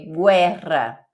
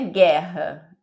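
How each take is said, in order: First: The u after the g is sounded separately. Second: The u after the g is silent. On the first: The speaker calls it right. "é guerra ... você precisa falar separado" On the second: The speaker calls it wrong. "não é guerra, igual a gente fala"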